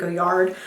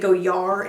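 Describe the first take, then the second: First: The name ends with a clear D sound. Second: The name ends without a D sound. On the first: The speaker calls it wrong. "I'll probably continue to pronounce the D" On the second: The speaker calls it right. "you pronounce it without the D"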